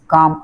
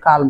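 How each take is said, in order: First: The L sound is left silent. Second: The L sound is clearly pronounced. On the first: The speaker calls it right. "हा यल आहे ना थोडा silent आहे" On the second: The speaker calls it wrong. "ह्याला जर आपण सरळ सरळ वाचायला काल म्हणता येईल. पण तसं नाही"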